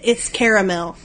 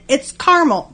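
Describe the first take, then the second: First: The word is said with three syllables. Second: The word is said with two syllables. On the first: It is the soft, gooey, drizzling kind. "If it's got two A's in it" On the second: It is the hard kind. "If it only has one A in it"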